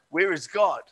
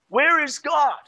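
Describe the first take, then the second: First: It is asked in a calm, plain voice. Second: It is asked in a firmer, stern voice.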